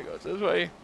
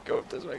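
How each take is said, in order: First: Said in the usual way. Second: Breathy whisper of the direction. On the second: Real, not acted. Finding his way in the game, whispered to himself. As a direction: whisper it to yourself.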